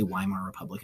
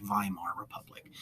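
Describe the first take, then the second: First: "Weimar" begun with an English W sound; anglicized pronunciation. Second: "Weimar" begun with a V sound; German pronunciation. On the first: Teacher offering students the alternative, "Weimar" said with an English W. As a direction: say "Weimar" with a W as in "way", not a V. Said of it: "You could also say". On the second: Teacher showing students the German way, "Weimar" said with a V. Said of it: "pronounce a W with a V sound". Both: Shown as a demonstration.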